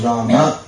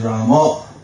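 First: The name ends with an open 'a' vowel. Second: The name ends with a rounded 'o' vowel. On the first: This is the general Sanskrit pronunciation. "The general Sanskrit pronunciation is Rama" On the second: This is the Bengali pronunciation. "Bengali pronunciation is Ramo"

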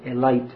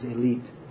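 First: It is said with an Indian English pronunciation. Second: It is said with a standard English pronunciation. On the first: "as they say in India" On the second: "But actually the pronunciation is elite"

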